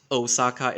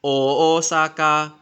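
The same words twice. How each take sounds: First: OSAKA said with a short, unstretched first O; wrong pronunciation. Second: OSAKA with a long, drawn-out opening O, louder; corrected pronunciation. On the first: Correcting how viewers say the city, mispronounced Osaka. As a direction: say Osaka with a quick English O. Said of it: "it's not pronounced Osaka". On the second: Correcting how viewers say the city, long-O Osaka. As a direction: stretch the first O of Osaka firmly. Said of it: "it's not pronounced Osaka, it's". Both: Shown as a demonstration.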